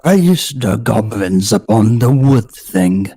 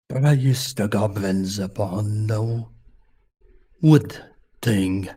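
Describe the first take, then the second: First: Put-on slow, louder bear accent, "Praise" clearly punched; "Praise" said loud and clear in a slow polar bear accent. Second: Put-on slow, softer bear accent, words half swallowed; "Praise" drawn out slow in a soft polar bear accent; quiet polar bear accent. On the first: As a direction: boom the chant so every word comes through. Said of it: "The first word is getting lost". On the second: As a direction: mumble the chant like a drowsy polar bear. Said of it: "when I'm doing the accent".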